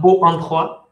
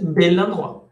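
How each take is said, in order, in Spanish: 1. Dos vocales se juntan sin consonante entre ellas. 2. Un sonido de L une las dos palabras. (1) "No se dice porque sería O-O" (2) "lo que hacen es convertir eso en una L"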